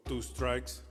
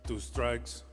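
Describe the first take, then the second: No difference in how they are said.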